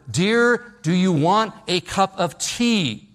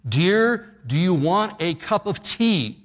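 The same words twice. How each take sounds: First: A louder, higher call; louder mock shout. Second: Mock shout. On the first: Husband in the doorway calling to his wife, louder mock shout. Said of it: "he says it even louder". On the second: Husband calling to his wife from the kitchen, mock shout. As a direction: call out across the house to a deaf wife. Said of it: "he shouts from the kitchen".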